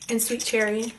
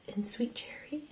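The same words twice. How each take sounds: First: Said in the usual way. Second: Soft whisper of the shade name. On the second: Real, not acted. Product name whispered, repeated plainly.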